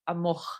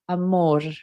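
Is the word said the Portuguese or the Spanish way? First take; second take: Portuguese; Spanish. First: It is said with a Brazilian Portuguese final r. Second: It is said with a Spanish pronunciation. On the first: "Portuguese, where I'm from, you say amor with an r at the end" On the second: "in Spanish, you say amor"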